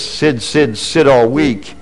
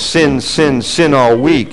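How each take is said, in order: First: The word is said with a lisp-like distortion. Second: The word is said clearly without distortion. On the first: "if you say it in his accent, it goes like this" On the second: "But what he was saying was"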